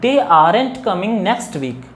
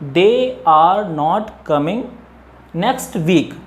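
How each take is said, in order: First: 'Are not' is contracted into one word. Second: 'Are not' is said as two separate words. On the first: "अगर इसको हम fluency के साथ बोलते हैं" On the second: "अगर हम इसको सेपरेटली रीड करेंगे"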